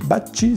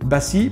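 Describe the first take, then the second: First: The name is pronounced the Italian way. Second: The name is pronounced the French way.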